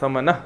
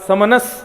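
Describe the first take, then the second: First: The word ends without the final s sound. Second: The word ends with a final s sound.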